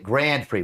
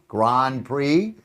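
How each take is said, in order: First: Grand Prix is pronounced the English way. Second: Grand Prix is pronounced the French way.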